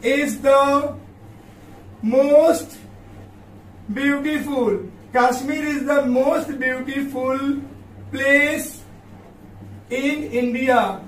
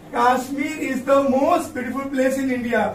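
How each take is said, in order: First: Long pauses between each word; word-by-word dictation. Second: Whole sentence read smoothly at a slow pace, no gaps between words; full sentence read slowly. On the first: Teacher to students dictating the example, word by word. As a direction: spell out the sentence one slow word at a time. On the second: Teacher to students reading the finished sentence back, slow and whole. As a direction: read it back in one slow flowing line. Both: Shown as a demonstration. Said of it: "देखो बच्चों, कश्मीर".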